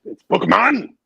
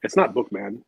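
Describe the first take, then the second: First: Loud mock German "Bookman"; put-on German accent on "Bookman"; mock German surname. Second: Said in the usual way. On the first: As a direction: punch out "Bookman" like a German, higher and louder. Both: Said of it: "saying my last name the wrong way".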